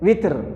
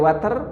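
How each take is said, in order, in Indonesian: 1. Vokal pertama adalah bunyi 'i'. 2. Vokal pertama adalah bunyi 'a'. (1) "boleh witir" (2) "Boleh water"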